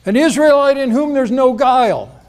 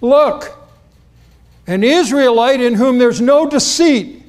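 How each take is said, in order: First: High, loud declaration; loud proclamation. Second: Called out high and loud across the distance. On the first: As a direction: proclaim it loudly for all to hear. King James wording, same loud call. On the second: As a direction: announce him loudly as he approaches. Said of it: "Jesus apparently says it loudly". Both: Retold or imitated.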